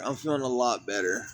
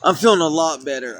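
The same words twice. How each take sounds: First: Softer and lower, half to herself; murmured second take of "I'm feeling a lot better"; quiet repeat. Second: Said in the usual way. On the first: Real, not acted. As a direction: drop the voice and say it again quietly. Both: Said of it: "repeats the line softer".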